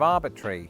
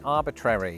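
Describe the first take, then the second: First: The ending is clipped, with fewer syllables. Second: Every letter of the ending is fully pronounced. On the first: "Instead of" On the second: "paying real respect to each of those three letters"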